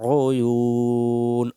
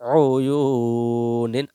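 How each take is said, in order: First: The word ends sharply on a silent 'n'. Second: The word ends with a full '-in' sound. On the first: The reader stops at this word. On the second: The reading continues without stopping.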